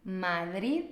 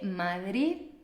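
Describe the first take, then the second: The two takes are said the same way.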